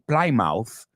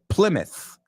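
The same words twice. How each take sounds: First: The ending sounds like the word mouth. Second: The ending sounds like the word myth. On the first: The speaker calls it wrong. "No se dice Plymouth" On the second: The speaker calls it right. "se dice Plymouth ... es myth"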